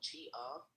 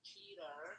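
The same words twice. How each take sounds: First: It is said in a British accent. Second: It is said in an American accent.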